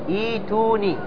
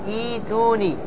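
The two takes are said the same way.

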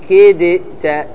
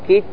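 First: The d is released with an echoing bounce. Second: The d merges fully into the following t. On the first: The speaker calls it wrong. "ما تقول كدت، تقلقل الدال" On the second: The speaker calls it right. "لأنه هنا إدغام، والإدغام يمنع القلقلة"

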